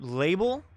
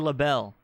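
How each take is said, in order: First: It sounds like the ordinary word 'label'. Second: It sounds like 'la-belle', ending in 'belle'. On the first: The speaker calls it right. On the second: The speaker calls it wrong.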